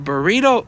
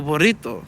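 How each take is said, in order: First: "burrito" with an unrolled English R. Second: "burrito" with a rolled Spanish R. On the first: Comparing two worlds' versions, "burrito" with unrolled R. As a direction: say "burrito" the American way, R not rolled. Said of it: "you can't roll your R's". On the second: Comparing two worlds' versions, "burrito" with rolled R. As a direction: roll the double R in "burrito". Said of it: "You gotta roll that R". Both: Shown as a demonstration.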